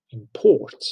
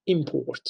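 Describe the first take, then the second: First: ImPORT, stress on the second syllable. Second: IMport, stress on the first syllable. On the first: Teacher showing students the verb, imPORT stressed last. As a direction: say import with PORT hit harder. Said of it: "the place of stress changes". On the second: Teacher showing students the noun, IMport stressed first. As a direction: say import with the beat on IM. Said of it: "Stress is on the first syllable". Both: Shown as a demonstration.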